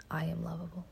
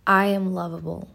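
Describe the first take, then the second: First: Whispered repeat of the affirmation; whispered echo. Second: Clear, slow affirmation; spoken affirmation. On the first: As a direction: whisper it back to yourself. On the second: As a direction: state it with conviction. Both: Shown as a demonstration. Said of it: "Say it with me".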